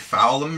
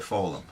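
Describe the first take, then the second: First: The vowel is a short 'ow' sound. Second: The vowel is a long 'or' sound. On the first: "Should be foul'em, really, but I don't say it that way" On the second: "I say fold'em"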